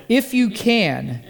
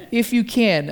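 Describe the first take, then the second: First: Weak, doubtful. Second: Said in the usual way. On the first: Retold or imitated. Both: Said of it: "a pretty weak statement of faith".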